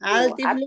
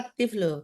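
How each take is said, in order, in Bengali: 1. 'আল'-এর L ধ্বনিটি স্পষ্টভাবে উচ্চারিত হয়। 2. 'আল'-এর L দ্বিত্ব T-এর সঙ্গে মিশে যায়।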